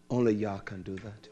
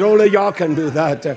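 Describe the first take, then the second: First: "only Yah can do that" dropped lower and much softer; hushed. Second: "Only" punched out firmly, a little louder; stress on ONLY. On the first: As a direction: say it low, almost to himself. Repeated line, second take. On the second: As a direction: hit the word "Only" like a proclamation. Repeated line, first take. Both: Acted.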